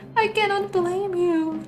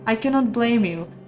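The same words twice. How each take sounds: First: It is said in a put-on child's voice. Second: It is said in his normal voice.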